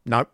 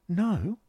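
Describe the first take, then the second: First: Short, firm "No"; "No" as a brief, straight-faced lie; unblushing denial. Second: High, incredulous "No?"; surprised "No?" leaping up in pitch; exclaimed question. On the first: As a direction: deny it outright on "No". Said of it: "almost unblushingly". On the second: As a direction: query "No?" in a much higher voice. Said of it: "exclaimed I". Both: A narrator's reading.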